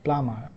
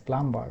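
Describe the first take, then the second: First: The b sound is silent. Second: The b sound is pronounced. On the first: The speaker calls it right. "So this is actually plumber" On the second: The speaker calls it wrong. "we pronounce it as plumber, but that's incorrect"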